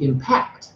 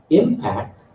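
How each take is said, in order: First: PACT in impact stressed; second-syllable stress. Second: IM in impact stressed; first-syllable stress. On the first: Teacher corrects the verb form, end-stressed impact. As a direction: land firmly on the end of impact. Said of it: "on the second syllable". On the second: Teacher questions impact as a verb, front-stressed impact. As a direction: punch the start of impact. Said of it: "what's wrong with that?". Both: Shown as a demonstration.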